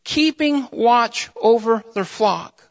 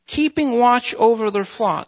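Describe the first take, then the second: First: "keeping watch over their flock" slow, word by word; emphatic phrasing. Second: Said in the usual way. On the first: Shown as a demonstration. Preacher highlights key words of the verse, emphatic. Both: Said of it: "I really want to emphasize those words".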